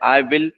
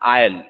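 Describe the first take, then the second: First: Both words are said fully, 'I will'. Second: It is shortened to one syllable, 'I'll'. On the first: "याचं pronunciation माहित आहे आय विल" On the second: "त्याचं pronunciation आहे आय एल"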